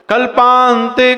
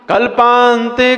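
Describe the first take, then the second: No difference in how they are said.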